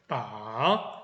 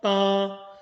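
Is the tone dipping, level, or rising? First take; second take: dipping; level. First: The pitch dips down then rises. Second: The pitch stays level throughout. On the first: "내려갔다가 소리가 올라오는 느낌을 주는 게 삼성" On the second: "고르게 소리 내는 게 팔이고요"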